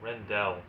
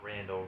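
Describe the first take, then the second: First: The first syllable sounds like 'ren'. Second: The first syllable sounds like 'ran'. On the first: The speaker calls it right. "I think that's how you say it" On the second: The speaker calls it wrong. "Not Randall"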